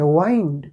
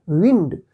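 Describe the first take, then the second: First: वाइंड with a long i, rhyming with kind; वाइंड said long, to turn or wrap up; wind, to turn. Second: विंड with a short i, as in hava; विंड said short, the blowing wind; wind, the air. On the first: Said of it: "इसी spelling का हम दूसरा pronunciation". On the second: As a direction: say विंड rhyming with tinned. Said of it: "बहती हवा को क्या कहते हैं". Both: Shown as a demonstration.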